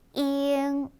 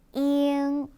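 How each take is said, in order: First: It goes straight from 'i' into the nasal. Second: The same.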